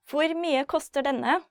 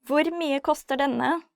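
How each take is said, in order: Both takes have the same delivery.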